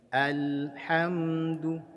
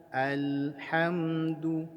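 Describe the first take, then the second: The two takes are said the same way.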